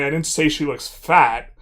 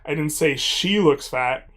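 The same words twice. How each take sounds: First: The word "fat" carries the main stress. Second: The word "I" carries the main stress. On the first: Something else was said about her appearance. "but I said something else about how she looks" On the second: Someone else said it. "but I said someone did"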